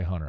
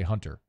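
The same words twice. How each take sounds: First: The T sound in the middle is dropped. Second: The T sound in the middle is pronounced. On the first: "I don't say Hunter" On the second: "I pronounce the T"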